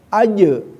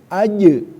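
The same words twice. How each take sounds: The two takes are said the same way.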